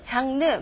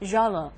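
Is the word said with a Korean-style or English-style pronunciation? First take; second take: Korean; English. First: It is said with Korean-style loanword sounds. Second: It is said with English-style native sounds. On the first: The speaker calls it wrong. "우리가 보통 발음하는 단어 장르" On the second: The speaker calls it right. "로버트의 발음을 들어보니까 genre 이런 식으로 발음을 하고 있죠"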